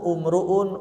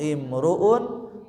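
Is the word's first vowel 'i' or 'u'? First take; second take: u; i. First: The word begins with a 'u' vowel. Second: The word begins with an 'i' vowel. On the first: The speaker calls it wrong. "tidak dibaca" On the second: The speaker calls it right.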